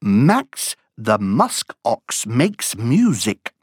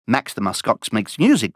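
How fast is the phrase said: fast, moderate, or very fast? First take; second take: moderate; very fast. First: The phrase is spoken at a moderate pace. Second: The phrase is spoken at a very fast pace.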